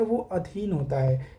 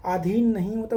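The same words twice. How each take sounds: First: अधीन with a plain unaspirated d, adheen; correct form said out. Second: अधीन said breathy-aspirated as adhheen, the wrong form; wrong spelling said out. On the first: Teacher to students gives the right form, plain d. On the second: Teacher to students shows the wrong form, aspirated dh. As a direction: say अधीन with an aspirated dh to show the error. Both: Shown as a demonstration.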